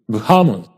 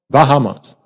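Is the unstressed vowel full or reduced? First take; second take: reduced; full. First: The unstressed vowel is reduced to uh. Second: The unstressed vowel is said as a full vowel. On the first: The speaker calls it right. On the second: The speaker calls it wrong.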